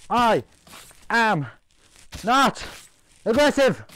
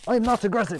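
First: "I am not aggressive" high, a pause after each word; word-by-word insistence. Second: "I'm not aggressive" high, in one run; high-pitched protest. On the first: Player insisting he is not aggressive, each word separate and high. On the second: Player protesting he is not aggressive, high quick denial. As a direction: protest it high without breaks. Insists, then repeats word by word. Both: Pretend.

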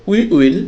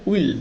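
First: Said in the usual way. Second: "will" as one short syllable for we will; contracted form. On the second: Shown as a demonstration. Teacher contracts we will, saying "will" as one syllable. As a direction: glide straight into one "will". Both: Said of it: "এটা হবে".

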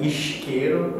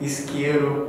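First: Isqueiro with a Rio sh, eesh-keiro; Rio accent. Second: Isqueiro with a clear s, ees-keiro; São Paulo accent. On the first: Explaining Brazilian accents, Rio pronunciation of isqueiro. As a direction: Carioca isqueiro, s turned into sh. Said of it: "they say, like". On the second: Explaining Brazilian accents, São Paulo pronunciation of isqueiro. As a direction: Paulista isqueiro, hissed s. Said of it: "in São Paulo, they say". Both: Shown as a demonstration.

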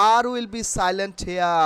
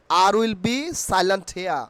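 Both takes have the same delivery.

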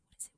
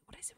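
First: Said in the usual way. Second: Hushed whisper; a whispered question into the grass. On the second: Acted. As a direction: breathe it, barely voiced. Searching the long grass in game.

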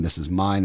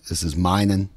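First: Said in the usual way. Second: "minin'" with an added -in' ending; Appalachian minin'. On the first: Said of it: "Instead of saying". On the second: Shown as a demonstration. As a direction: stretch mine into "minin'" like a hill speaker. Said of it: "they might say".

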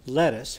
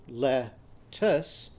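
First: Said in the usual way. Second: "Lettuce" broken in two with a clear pause between syllables. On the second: Shown as a demonstration. Teacher counting syllables in "Lettuce", the two syllables said apart. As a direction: split "Lettuce" into two separate beats. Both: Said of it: "How many syllables were in the word lettuce?".

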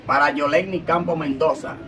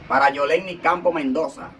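Both takes have the same delivery.

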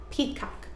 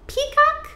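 First: Peacock whispered softly; whispered echo. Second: Peacock called very high. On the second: High then whispered repeat. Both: Shown as a demonstration.

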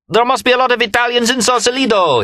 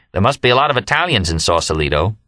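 First: Very high, ringing full-throated cry; shouted. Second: Said in the usual way. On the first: A narrator's reading. Remy repeats his friend's remark, top-of-lungs high shout. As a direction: shout it on a high held note. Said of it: "he shouted at the top of his lungs". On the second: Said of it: "the first thing I said was".

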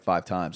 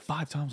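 First: Said in the usual way. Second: Quiet, questioning double-take; acted-out hushed disbelief; disbelieving echo. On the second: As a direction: echo it back softly as a stunned question. Stunned echo of the interviewer's answer.

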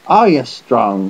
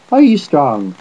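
First: Slow, drawn-out question; slower, insistent delivery; repeated challenge. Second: Higher, louder challenge; lightly voiced bold youngster; big-voiced small boy. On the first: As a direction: stretch the words out, pressing the challenge. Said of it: "said Finn again". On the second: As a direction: fire the question out boldly. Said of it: "What a voice in such a small chap". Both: A narrator's reading.

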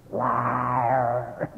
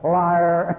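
First: Said in the usual way. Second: Louder, punching the word Liar; loud accusation. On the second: Acted. Preacher calls the healer a liar, loud accusation. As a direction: bark Liar. at the lying healer. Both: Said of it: "He got the fifth time".

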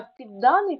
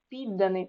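First: ПідДАний, stressed on the second syllable; підданий with middle stress, as a demo; stress shows meaning. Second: ПІДданий, stressed on the first syllable; Підданий with initial stress, as a demo; stress shows meaning. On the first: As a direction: move the punch in підданий to ДА. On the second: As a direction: put the stress at the start of Підданий. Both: Shown as a demonstration. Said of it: "значення слова залежить від наголосу".

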